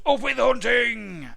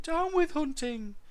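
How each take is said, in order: First: High, loud, drawn-out shout; full-voiced hunting cry. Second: Very high, slow dinosaur hoot; small duckbill's piping chant. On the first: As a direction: bellow it slowly as a war chant. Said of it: "they shouted". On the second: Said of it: "he hooted". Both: A narrator's reading.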